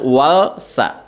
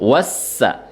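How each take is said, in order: First: The l is clearly pronounced before the s. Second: The l is merged into a doubled s. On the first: The speaker calls it wrong. "jangan walsa" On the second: The speaker calls it right. "Jadi dibacanya langsung lebur"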